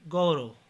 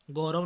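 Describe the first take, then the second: First: Said in the usual way. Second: गौरव with a plain o; mispronunciation. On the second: Shown as a demonstration. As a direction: say go-rav for गौरव. (गौरव को गोरव बोलें) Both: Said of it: "नहीं".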